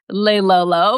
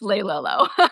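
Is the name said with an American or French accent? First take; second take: French; American. First: It is said with a French accent. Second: It is said with an American accent. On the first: "a beautiful French accent would say" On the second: "for us Americans, it's"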